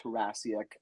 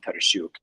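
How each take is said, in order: First: The surname is said the English way. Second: The surname is said the Ukrainian way. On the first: "I pronounce it Tarasiak" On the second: "in Ukrainian, my name is Markian Tarasiuk"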